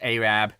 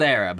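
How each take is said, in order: First: The word is said the way locals say it. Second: The word is said the common, everyday way. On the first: This is how the town's name is actually said. "but it's pronounced Arab" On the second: This is how the name is written. "spelled Arab"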